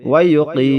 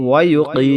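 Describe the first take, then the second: No difference in how they are said.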